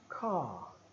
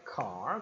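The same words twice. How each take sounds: First: The R is dropped and the vowel lengthened. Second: The final R sound is clearly pronounced. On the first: "O britânico usaria apenas os dois pontos, alongando o som da vogal" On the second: "O americano daria uma ênfase no R"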